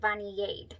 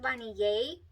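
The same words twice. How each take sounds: First: The name ends with a clear D sound. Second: The name ends without a D sound. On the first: The speaker calls it right. "but there's a D, so I believe you pronounce it" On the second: The speaker calls it wrong. "I thought it was"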